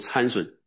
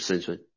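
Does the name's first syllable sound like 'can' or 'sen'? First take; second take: can; sen. First: The first syllable sounds like 'can'. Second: The first syllable sounds like 'sen'. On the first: This is how Chinese speakers usually read the name. "中国人读参孙啊" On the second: This follows the English pronunciation of the name. "是在英文发音就是森孙啊"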